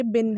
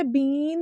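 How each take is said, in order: First: "बिन" short i, lower; correct pronunciation. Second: "बीन" with stretched ee; wrong pronunciation. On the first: Teacher confirms the right form, "बिन" said short and low. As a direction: drop down on a brief "बिन". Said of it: "ये बिन है". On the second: Teacher negates the error, "बीन" mispronounced long. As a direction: hold the ee in "बीन". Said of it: "नहीं है ये". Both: Shown as a demonstration.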